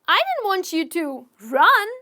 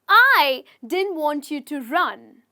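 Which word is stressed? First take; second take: run; I. First: The stress is on the word run. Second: The stress is on the word I.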